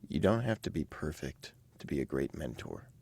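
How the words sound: It is said expressively, with warm supportive colouring.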